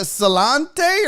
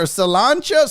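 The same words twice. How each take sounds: First: "Salante" ending in a "tay" sound; unsure pronunciation. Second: "Salancha" ending in a "chuh" sound; alternative pronunciation. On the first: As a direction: try "Salante" as sah-LAHN-tay, questioning. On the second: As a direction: try "Salancha" as sah-LAHN-chuh. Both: Shown as a demonstration. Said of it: "how do you say".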